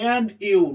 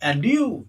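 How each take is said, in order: First: It is said flat, not as a question. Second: It is said as a question, rising.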